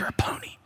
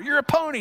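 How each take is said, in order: First: It is said at a quieter volume. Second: It is said at a louder volume.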